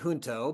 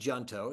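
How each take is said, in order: First: The word is said with a Spanish pronunciation. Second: The word is said with an English pronunciation. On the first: "In Spanish, we would say" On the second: "I think he probably pronounced it"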